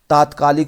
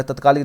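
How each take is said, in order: First: तात्कालिक said with a long first vowel, ता-त्कालिक; correct form. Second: तत्कालिक said with a short first vowel, त-त्कालिक; wrong form. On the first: Teacher giving students the correct spelling, firm. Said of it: "तत्कालिक नहीं". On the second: Teacher showing students the wrong form, firm. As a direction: say तत्कालिक with a short त to show the error. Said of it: "नहीं". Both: Shown as a demonstration.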